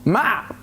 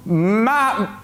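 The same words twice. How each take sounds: First: MATT short, pitched high; hesitant guess. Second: MATT stretched long and high; drawn-out guess. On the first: Asked for his name again, tries a short, high MATT. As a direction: say MATT briefly on a high note. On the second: Asked for his name again, stretches out a high, uncertain MATT. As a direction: hold the M and vowel of MATT, feeling for the ending. Second try at forgotten name. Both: Acted.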